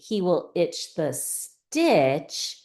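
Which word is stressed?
stitch. The word stitch carries the main stress. It is about what he itches. "If you read it this way"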